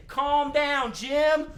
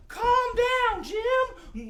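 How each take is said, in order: First: Chanted, raised, louder drawn-out command; chanted, call it out for everyone to repeat; leading a chant. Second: Very high, drawn-out call; high-pitched echo. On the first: Chanted, host with children settling the excited dog, calling out. Leads audience in calming dog. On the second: Echoing for the children calming the dog, high call. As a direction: repeat it in a high head voice. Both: Pretend.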